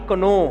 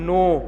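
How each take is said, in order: First: The word starts with a k sound before n. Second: The word starts with an n sound, no k. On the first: The speaker calls it wrong. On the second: The speaker calls it right.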